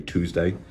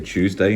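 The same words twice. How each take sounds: First: It is said with an American pronunciation. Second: It is said with a British pronunciation. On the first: "Americans say Tuesday" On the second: "we say Tuesday in the U K"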